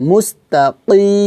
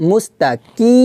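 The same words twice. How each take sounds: First: মুস্তাকি slow, with a back-of-throat q; deep Q sound. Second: মুস্তাকি with a light front k; plain K mistake. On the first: Teacher reciting correctly, মুস্তাকি with Arabic q and long final vowel. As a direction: draw out মুস্তাকি with q in place of k. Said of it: "এখানে কিন্তু মুস্তাকি হবে না". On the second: Teacher showing the mistake, মুস্তাকি with a plain k. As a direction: say the end of মুস্তাকি as a simple "kii". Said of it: "হবে না". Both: Shown as a demonstration.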